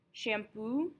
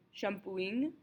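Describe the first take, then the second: First: Shampoo said the English way, "sham-POO"; English pronunciation. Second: Shampooing said the French way, ending in nasal "pwan"; French pronunciation. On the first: Teacher listing the hardest cognates, English pronunciation of shampoo. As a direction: say shampoo as an English word ending in "oo". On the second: Teacher listing the hardest cognates, French pronunciation of shampooing. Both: Shown as a demonstration. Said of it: "three hardest ones in this unit".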